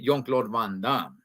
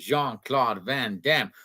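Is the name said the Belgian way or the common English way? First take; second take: Belgian; common English. First: The name is said the Belgian way. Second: The name is said the common English way. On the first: The speaker calls it right. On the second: The speaker calls it wrong.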